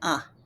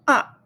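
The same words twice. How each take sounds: First: It is short and light. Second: The pitch falls sharply. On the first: "The neutral tone is very light" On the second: "Fourth tone"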